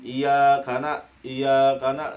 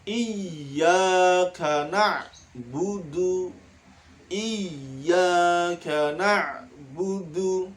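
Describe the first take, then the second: First: "iyyaka" with the shadda dropped; wrong reading. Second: "Iyyaka" slow with the doubled y held; correct reading. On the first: Teacher demonstrates the wrong reading to pupils. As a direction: say "iyyaka" with a single y. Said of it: "nah, itu salah ya". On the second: Teacher models the held shadda for the class. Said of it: "Harus ditahan". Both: Shown as a demonstration.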